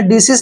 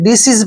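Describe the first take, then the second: First: The word ends with an s sound. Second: The word ends with a z sound. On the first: The speaker calls it wrong. "आपने डिसीज नहीं पढ़ना है" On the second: The speaker calls it right. "डिसीज पढ़ना है"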